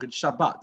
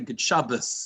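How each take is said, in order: First: The last word ends with a t sound. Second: The last word ends with an s sound.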